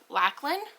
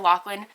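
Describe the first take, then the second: First: The name is said in a non-American way. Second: The name is said in an American way. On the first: This copies how the audiobook narrator says it. "I think is how um, the audiobook narrator says it" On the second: This feels more natural in the speaker's own accent. "That sounds a little bit more natural coming from my Americanized accent"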